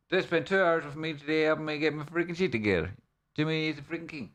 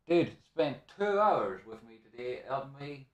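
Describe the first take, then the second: First: Excited praise. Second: Said in the usual way. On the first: Real, not acted. Thanking a helper.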